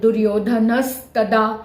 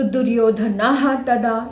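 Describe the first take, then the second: First: The first word ends in a linked s sound. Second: The first word ends in a breathy visarga sound.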